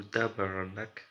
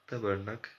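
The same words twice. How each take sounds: First: Put-on "tabarnak" slowly drawn out in a Québécois accent; mock Québécois accent with a slow "tabarnak"; slow Québécois swear. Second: Put-on "Tabarnak" said quickly in a Québécois accent; light mock Québécois accent, "Tabarnak" at normal speed; quick Québécois swear. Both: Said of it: "Je sais pas faire l'accent québécois de ouf".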